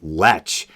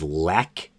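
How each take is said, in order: First: The name ends with a ch sound. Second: The name ends with a hard k sound. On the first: It sounds like an insult for a lecherous person. The speaker calls it wrong. "Weinstein is pronouncing it Lech" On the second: This is how the producer says his own name. The speaker calls it right. "The producer's last name is Lech"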